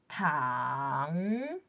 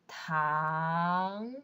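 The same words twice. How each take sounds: First: The pitch dips low and then rises. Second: The pitch rises from mid to high. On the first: "Third tone" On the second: "Second tone"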